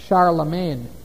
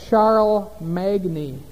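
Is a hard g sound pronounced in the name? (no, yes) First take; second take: no; yes. First: The g is silent, in French style. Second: The g is pronounced as a hard sound. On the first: The speaker calls it right. "That's the French pronunciation, Charlemagne. They don't say the G there" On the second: The speaker calls it wrong. "It looks like Charles Magni"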